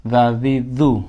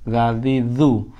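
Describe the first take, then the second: No difference in how they are said.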